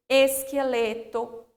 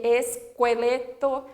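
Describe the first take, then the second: First: Slow esqueleto with a plain k; careful k sound in esqueleto, no w; silent U. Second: Slow esqueleto as es-kwe-LE-to; deliberate kw in Esqueleto; wrongly sounded U. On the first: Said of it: "formam também um único som". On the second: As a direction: say "Esqueleto" with a w after the k. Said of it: "não é essa pronúncia". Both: Shown as a demonstration.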